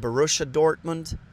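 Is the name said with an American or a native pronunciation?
American. The name is said with an American pronunciation. The speaker calls it wrong. "now this is not Borussia Dortmund"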